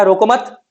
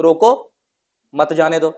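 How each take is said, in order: First: "रोको मत" run together and stopped on a rising "मत"; pause after मत. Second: "रोको" said alone with a rising tune, a pause, then "मत जाने दो"; pause after रोको. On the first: Teacher shows the comma moved after "रोको मत", a pause after "मत". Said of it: "रोको मत" के बाद कॉमा लगाया". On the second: Teacher shows the comma after "रोको" with a pause. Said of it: "रोको के बाद कॉमा लगाया". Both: Shown as a demonstration.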